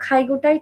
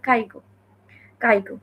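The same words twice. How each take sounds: First: খাইগোটাই with a breathy aspirated kh at the start; correct pronunciation. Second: কাইগো with a hard unaspirated k, mimicking the mistake; wrong pronunciation. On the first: Teaching viewers the right খাইগো, aspirated kh. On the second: Correcting those who mispronounce caregiver visa, mock wrong কাইগো. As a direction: say কাইগো with plain k instead of kh. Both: Shown as a demonstration. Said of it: "খাইগোটাই ঠিক মতো উচ্চারণ করতে পারে না".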